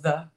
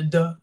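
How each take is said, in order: First: The word begins with a soft th sound. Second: The word begins with a hard d sound. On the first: The speaker calls it right. "instead of the" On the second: The speaker calls it wrong. "I do the duh instead of"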